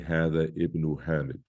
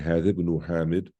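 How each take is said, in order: First: The glottal stop before ibn is pronounced. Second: The glottal stop is dropped, linking the words. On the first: The speaker calls it wrong. "you can't say" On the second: The speaker calls it right. "You don't pronounce it if there is something in front of it"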